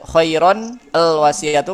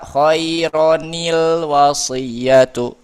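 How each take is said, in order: First: The n is followed by 'al' without an 'i'. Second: The n is followed by an 'i' before the l. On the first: The speaker calls it wrong. "kan susah nih ditulis di dibacanya nih" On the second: The speaker calls it right. "si nunnya diberikan harokat kasroh"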